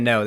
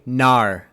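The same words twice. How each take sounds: First: Said in the usual way. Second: "nar" with an ar vowel in place of no; "nar", the New Zealand way of saying no; New Zealand pronunciation. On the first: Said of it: "instead of". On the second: Retold or imitated. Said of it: "They say".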